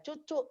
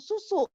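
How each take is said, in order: First: The word begins with a ch sound. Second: The word begins with an s sound. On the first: It imitates a young child's lisping baby talk. The speaker calls it wrong. "kadang-kadang kita cadelin anak" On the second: It is the full adult pronunciation. The speaker calls it right. "Saudara tetap harus ngomong susu"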